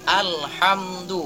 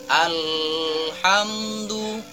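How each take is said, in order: First: The 'al' is clear, flowing straight on. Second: The 'al' is held with a nasal hum. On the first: The speaker calls it right. "yang benar adalah alhamdu, langsung masuk ke huruf setelah alif lamnya" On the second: The speaker calls it wrong. "bacaan yang salah itu seperti alhamdu"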